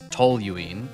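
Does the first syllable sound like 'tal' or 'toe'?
toe. The first syllable has a strong O sound. "normally said in American accent as toluene with a strong O"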